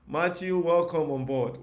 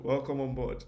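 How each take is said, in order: First: Higher, loud welcome, slowed on welcome. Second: Said in the usual way. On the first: Real, not acted. Tutor welcoming viewer Matthew from the comments, loud and excited. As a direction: call out a big welcome to the newcomer.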